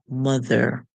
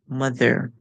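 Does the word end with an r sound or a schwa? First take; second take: r sound; r sound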